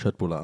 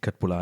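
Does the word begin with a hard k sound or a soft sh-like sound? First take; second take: soft sh; hard k. First: The word begins with a soft sh-like sound. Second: The word begins with a hard k sound. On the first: The speaker calls it right. "Also es ist nur Schwedisch, ne? Es ist Chetbula" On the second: The speaker calls it wrong. "dass es nicht Köttbula heißt"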